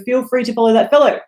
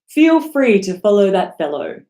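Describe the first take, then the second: First: It is said very fast. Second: It is said at a normal, steady pace.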